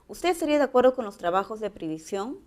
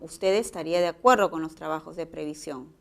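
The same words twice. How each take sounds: First: The voice rises at the end. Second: The voice falls at the end.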